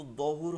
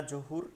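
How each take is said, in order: First: দহুর begun with a heavy Arabic dad instead of j; corrected pronunciation. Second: জহুর begun with a Bengali j sound; common mispronunciation. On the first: Teacher corrects the prayer's name, corrected pronunciation. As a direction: open দহুর on a thick d, no j. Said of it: "দোয়াত থেকে হবে". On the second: Teacher quotes how we usually name the prayer, common mispronunciation. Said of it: "এটা কিন্তু দহুর হবে". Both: Shown as a demonstration.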